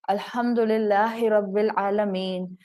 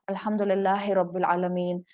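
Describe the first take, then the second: First: It is recited at a slow pace. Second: It is recited at a faster pace.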